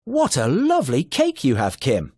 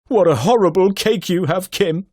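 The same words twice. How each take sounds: First: Delighted exclamation, lifted pitch; amazed. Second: Loud, higher horrified exclamation. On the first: Teacher demos a delighted exclamation about the cake. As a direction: gasp it out in happy amazement. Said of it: "strong feeling, perhaps amazement, excitement". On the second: Teacher demos a horrified exclamation, louder and higher. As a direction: recoil in mock horror at the cake. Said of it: "or even horror". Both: Shown as a demonstration.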